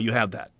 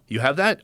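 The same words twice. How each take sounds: First: The pitch falls at the end. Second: The pitch rises at the end. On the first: It is a statement. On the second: It is a question.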